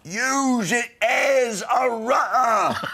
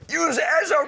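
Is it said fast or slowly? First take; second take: slowly; fast. First: It is said slowly, words separated. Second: It is said fast, words run together.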